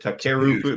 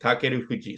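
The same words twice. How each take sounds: First: The u sound is fully and clearly pronounced. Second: The u sound is subtle and barely pronounced. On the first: The speaker calls it wrong. "So not Takeru Fuji" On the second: The speaker calls it right. "that U is like barely anything"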